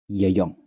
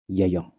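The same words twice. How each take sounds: The two takes are said the same way.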